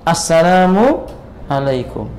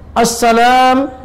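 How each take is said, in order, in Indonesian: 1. Seluruh frasa diucapkan tanpa dipotong. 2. Frasanya berhenti setelah kata pertama. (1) "Harusnya kan" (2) "Sebagian imam begitu"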